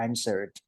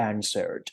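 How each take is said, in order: First: "Answered" in two syllables, ending in a simple "d"; correct "-ed" ending. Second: "answered" mispronounced with an extra syllable, "answer-red"; wrong "-ed" ending. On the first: Teacher correcting the reading, "Answered" with just a final "d" sound. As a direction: close "Answered" on a "d" without an extra syllable. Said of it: "อ่านอย่างนั้นไม่ได้นะ". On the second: Teacher mimicking learners who see E D, "answered" with a wrong extra syllable. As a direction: read the "-ed" of "answered" as its own syllable. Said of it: "ไม่อ่านว่า answered บางคนที่แบบเห็น E D ปุ๊บ".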